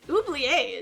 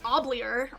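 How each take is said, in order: First: The name is said with a French accent. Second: The name is said with an American accent. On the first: The speaker calls it right. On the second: The speaker calls it wrong.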